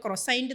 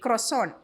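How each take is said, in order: First: ക്രൊസൈന്റ് said kro-SAINT, every letter spoken; ക്രൊസൈന്റ് with a plain English -sant ending; anglicised croissant. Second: Croissant said the French way, as kwa-SON; Croissant the proper French way, nasal ending; correct croissant. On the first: Shrugging off café snobs with the kro-saint ക്രൊസൈന്റ്. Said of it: "ഞാൻ അതിനിപ്പോൾ ക്രൊസൈന്റ് എന്ന് വിളിച്ചാലും എന്താ". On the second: Speaker showing the café-correct way to say it, French croissant. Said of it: "if you don't know to say croissant". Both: Shown as a demonstration.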